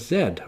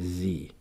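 First: The letter is said the non-American way, like zed. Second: The letter is said the American way, like zee.

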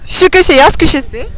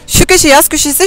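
First: It is said slowly. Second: It is said fast.

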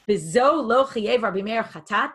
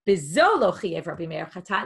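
First: It is said as a question. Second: It is said as a statement.

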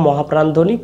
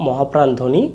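Both takes have the same delivery.

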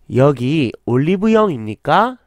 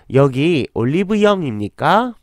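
The two takes are said the same way.

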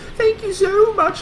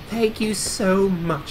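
First: It is said in an obnoxiously high voice. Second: It is said in a plain British voice. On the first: The speaker calls it right. "It's like obnoxiously high voice" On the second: The speaker calls it wrong. "It was not just simple, tiny Tim British voice"

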